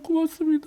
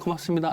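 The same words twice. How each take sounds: First: The thanks is said with deep, heartfelt emotion. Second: The thanks is said lightly and casually. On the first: The speaker is truly very grateful. "너무너무 건매면" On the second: The thanks is a polite formality. "형식적으로 할 때는"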